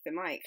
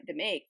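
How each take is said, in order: First: Said in the usual way. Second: "mic" slipped into "make"; "mic" misspoken with an AY vowel; slip of the tongue. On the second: Real, not acted.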